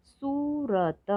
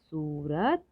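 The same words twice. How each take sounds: First: सूरत split as high long सू, र, त; slow separate beats in सूरत; letter by letter. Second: Said in the usual way. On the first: Shown as a demonstration. Teacher sounding out सूरत for learners, letter by letter. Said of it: "थोड़ा अधिक समय लगता है". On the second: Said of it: "तो शब्द पढ़ते हैं".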